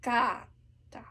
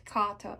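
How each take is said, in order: First: Kata whispered slowly, the right way; correct kata. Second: Kata said the wrong way; the kata to avoid. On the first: Coach whispering the right kata. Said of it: "it's kata". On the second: Coach showing the wrong kata. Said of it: "Not kata". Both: Shown as a demonstration.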